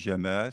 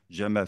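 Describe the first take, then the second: First: The second vowel is long. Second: The second vowel is short. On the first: It means beauty. "c'est la beauté" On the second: It means camel. "c'est le chameau"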